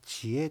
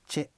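First: Two separate syllables, chi and e, are said. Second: The syllables merge into one syllable, che. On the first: "静内方言の場合はチエという言い方をします" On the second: "これが縮まってチェという"

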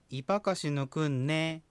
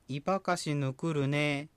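First: The consonant before the final syllable is n. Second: The consonant before the final syllable is r. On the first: The speaker calls it right. "というふうに字がなってる" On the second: The speaker calls it wrong. "ではなくて"

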